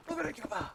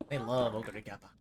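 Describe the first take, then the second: First: Much higher caster cry, hammed up; overexcited commentator imitation; mock hype call. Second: Said in the usual way.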